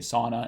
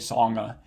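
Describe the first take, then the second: First: The middle consonant is a plain n sound. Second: The middle consonant is an ng sound. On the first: The speaker calls it right. "You say sauna and song" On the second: The speaker calls it wrong. "you don't say songa or san"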